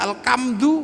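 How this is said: The consonant after 'al' is a k sound. The speaker calls it wrong.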